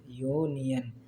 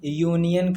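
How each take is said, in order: First: यूनियन slowly, lower, opening on a drawn-out "yoo"; sound it out. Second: Said in the usual way. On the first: Shown as a demonstration. Teacher showing the class it starts with या, यूनियन drawn out. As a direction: stretch यूनियन softly from its y sound. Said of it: "यूनियन का भी pronunciation कैसे हो रहा है? / या से". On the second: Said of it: "pronunciation कैसे हो रहा है".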